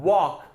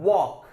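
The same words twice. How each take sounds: Both takes have the same delivery.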